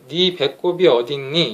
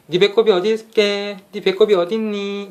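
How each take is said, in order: First: Slow, evenly measured question; mechanical. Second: High, melodic sing-song teasing; playful baby talk. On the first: Showing how nobody talks to a baby, mechanical. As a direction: say it word by word, like a machine. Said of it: "이렇게 기계적으로 얘기하지 않잖아요". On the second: Parent asking a baby where the belly button is, playful. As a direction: lilt it up high, as if playing with a baby. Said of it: "이런 식으로 장난스럽게 멜로디가 섞이면서". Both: Shown as a demonstration.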